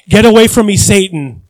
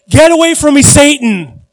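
First: A loud stern rebuke, voiced lightly. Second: Louder, higher furious rebuke; angry rebuke. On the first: Pastor voicing Jesus rebuking Peter, loud stern rebuke. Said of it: "reprimanded Peter". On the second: Retold or imitated. Jesus turning to rebuke Peter, loud furious shout. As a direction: rebuke Peter, beet red with anger. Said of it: "he said".

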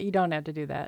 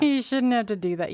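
First: Said in the usual way. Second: "You shouldn't have to do that" pushed higher and louder, leaning on "You"; firm push on "You" in "You shouldn't have to do that"; emphatic. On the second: Real, not acted. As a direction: insist hard on "You", raised and loud.

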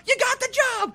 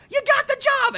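First: High, loud goofy yell; shouted in a much higher goofy voice; goofy Tom Green shout. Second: Even higher, louder goofy yell; bigger goofy Tom Green shout. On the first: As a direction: bellow the good news like a madman. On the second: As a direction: top the first one, go over the edge. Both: Retold or imitated. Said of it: "like, doing voices where he's like".

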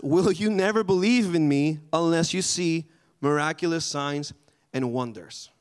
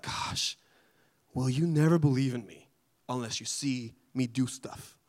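First: Said in the usual way. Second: Whispered gosh, then a mildly fed-up question; a touch of weary exasperation; exasperated Jesus. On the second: Retold or imitated. Jesus to the begging father, mildly exasperated. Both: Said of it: "maybe it wasn't in that tone".

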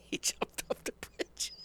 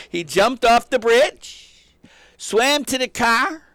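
First: Whispered through a laugh, slow; half-laughing in disbelief, barely voiced; breathless laughing. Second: Much higher and louder, slow and drawn out; awed emphasis. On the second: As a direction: marvel at the hero, stretching every word. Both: Real, not acted.

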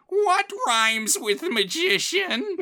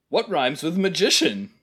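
First: Super high-pitched, drawn-out obnoxious rhymer; screechy-high character imitation, stretching every word slowly; Tom Tit Tot. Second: Toned-down imitation of an obnoxious rhymer; Tom Tit Tot. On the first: Co-host outdoing the other's imitation, super high-pitched and slow. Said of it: "imitating his voice. It's like". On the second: Co-host quoting the movie gag, a mild character imitation. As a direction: imitate the character, going a bit higher on "magician". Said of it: "you're being too generous imitating his voice".

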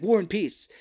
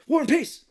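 First: Quick, proud blurt of the answer. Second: Much higher and louder, yelling the title; shouted answer. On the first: Raphael answering the trivia question with a quick, mildly excited blurt. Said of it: "and he's like". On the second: Emilio Estevez yelling the answer at the trivia game. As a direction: burst out with the answer like a game-show win. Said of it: "Emilio Estevez is like". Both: Retold or imitated.

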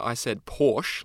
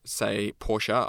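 First: Porsche said as "porsh"; one-syllable Porsche. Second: Porsche said as "POR-sha"; two-syllable Porsche. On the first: Guest gives the usual Australian way, Porsche said porsh. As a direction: drop the final e of "Porsche". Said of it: "like most Australians". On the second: Guest denies having used it, Porsche said POR-sha. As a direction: sound the final e of "Porsche" as uh. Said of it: "I said Porsche, like most Australians". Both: Shown as a demonstration.

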